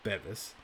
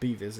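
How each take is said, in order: First: The first vowel is a short 'eh' sound. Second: The first vowel is a long 'ee' sound. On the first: The speaker calls it right. "It's Bevis" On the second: The speaker calls it wrong. "so it's not Beavis"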